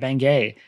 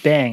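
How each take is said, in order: First: The name ends with a final vowel sound. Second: The name ends without a final vowel sound. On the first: "Put an accent on there" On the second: "just Bang, it's a silent E"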